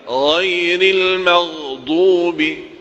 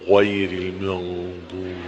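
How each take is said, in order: First: The vowels are plain without extra lip rounding. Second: The vowels are heavily rounded with moving lips. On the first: The speaker calls it right. "Padahal sederhana" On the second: The speaker calls it wrong.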